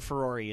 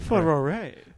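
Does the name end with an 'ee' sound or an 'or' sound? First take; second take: ee; or. First: The name ends with an 'ee' sound. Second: The name ends with an 'or' sound. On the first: The speaker calls it wrong. "She'll always be Ferrari to me" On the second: The speaker calls it right. "Apparently it's Ferrore"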